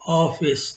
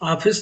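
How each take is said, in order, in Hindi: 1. पहला स्वर खुला गोल 'aw' है। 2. पहला स्वर सादा लंबा 'aa' है। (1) "हम कहते ऑफिस" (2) "हम ऑफिस ऑफिस नहीं कहते"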